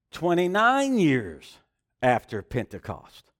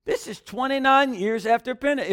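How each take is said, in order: First: "twenty-nine" drawn out slowly, voice dropping on "after Pentecost"; slow stress. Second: "twenty-nine" punched high, full sentence at normal pace; stress on twenty-nine. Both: Shown as a demonstration.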